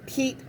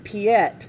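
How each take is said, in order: First: The name is said as one syllable. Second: The name is said as two syllables. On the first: The speaker calls it right. "it's Pete is the proper name" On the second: The speaker calls it wrong. "trying to pronounce the name Pete by what they see"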